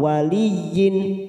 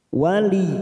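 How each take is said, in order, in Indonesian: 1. Kata ini berlanjut dengan akhiran -yin. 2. Kata ini berhenti mendadak pada bunyi y ganda. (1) "jangan sampai wali atau waliyin" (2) "maka bunyinya wali"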